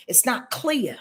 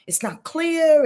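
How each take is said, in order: First: Said in the usual way. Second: "clear" pushed higher and louder, falling; emphatic repeat. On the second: Real, not acted. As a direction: stress "it's not clear" hard on "clear".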